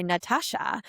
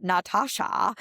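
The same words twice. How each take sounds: First: Said in the usual way. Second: Imitating mom's German accent, open a's. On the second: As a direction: say Natasha like a German mother. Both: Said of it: "in her German accent".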